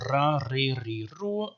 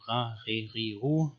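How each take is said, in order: First: Ra, Re, Ri, Ru with a rolled tongue-tip R like Arabic; old Arabic-style trilled R in Ra, Re, Ri, Ru; trilled alveolar R. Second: Ra, Re, Ri, Ru with a throaty uvular R, a bit softer; guttural Hebrew-like R in Ra, Re, Ri, Ru. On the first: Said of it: "I don't think anymore that they sounded like that". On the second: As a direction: say Ra, Re, Ri, Ru from the back of the throat. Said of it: "this is how the Babylonians spoke". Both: Shown as a demonstration.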